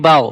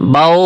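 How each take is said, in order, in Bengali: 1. শব্দাংশটি দ্রুত ও নরমভাবে বলা হয়। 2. শব্দাংশটি টেনে ও দীর্ঘ করে বলা হয়। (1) "নরম করতে হবে, তাড়াতাড়ি পড়তে হবে" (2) "লিনের হরফের পরে যদি ওয়াকফ হয়"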